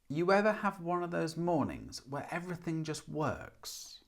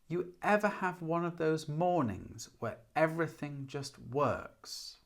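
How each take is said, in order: First: The sentence is spoken at a faster pace. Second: The sentence is spoken at a slower pace.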